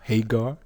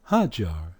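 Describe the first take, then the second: First: The middle consonant is a hard G sound. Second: The middle consonant is a J sound.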